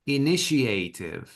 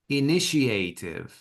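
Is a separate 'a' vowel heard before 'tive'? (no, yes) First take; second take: yes; yes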